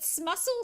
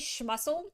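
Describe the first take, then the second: First: The word begins with a plain 's' sound. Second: The word begins with an 'sh' sound. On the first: "But smussel sounds stupid" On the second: "My brain wants to say schmussel. ... it's not spelled S C H M"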